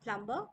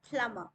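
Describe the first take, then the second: First: The b sound is pronounced. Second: The b is silent. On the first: The speaker calls it wrong. "It's not plumber" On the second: The speaker calls it right. "we will say plumber"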